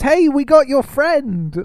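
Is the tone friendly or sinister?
friendly. It is said in a friendly tone.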